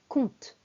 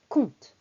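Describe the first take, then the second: Both takes have the same delivery.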